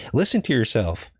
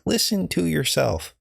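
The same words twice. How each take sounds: First: Said in the usual way. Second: Higher, slower, exasperated; exasperated retort. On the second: Retold or imitated. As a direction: drag it out in disbelief. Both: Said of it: "I'm like".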